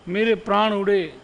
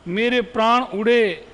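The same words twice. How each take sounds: The two takes are said the same way.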